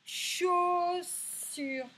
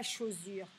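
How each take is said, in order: First: "Chaussure" high, loud and drawn out, hissed s; correct S sound. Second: "chaussure" with a buzzed z for the middle s; wrong Z sound. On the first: Teacher testing pupils' ears, "Chaussure" slowly with s. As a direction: hold both syllables of "Chaussure", s not z. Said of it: "c'est le son S qu'on entend". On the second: Teacher showing what isn't said, "chaussure" with z. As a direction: say "chaussure" as cho-zure. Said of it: "on dit pas chaussure". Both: Shown as a demonstration.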